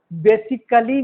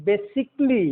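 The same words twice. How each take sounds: First: "basically" as be-si-ka-lee; wrong pronunciation. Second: "basically" as be-sik-lee; silent A. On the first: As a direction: sound the a in "basically". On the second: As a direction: drop the a in "basically". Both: Shown as a demonstration. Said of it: "basically नहीं".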